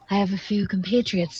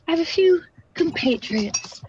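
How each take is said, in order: First: It is spoken in the speaker's usual accent. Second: It is spoken in a British accent.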